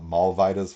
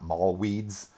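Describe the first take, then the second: First: The W is sounded like a V. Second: The W is sounded like an English W. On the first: The speaker calls it right. "that W would be pronounced like a V and like a Vida right there on the end" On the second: The speaker calls it wrong. "not mall weeds"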